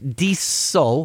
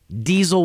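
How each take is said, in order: First: The middle consonant is a hissing S sound. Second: The middle consonant is a buzzing Z sound. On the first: The speaker calls it right. "diesel with an S" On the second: The speaker calls it wrong. "pronounced it like diesel with a Z"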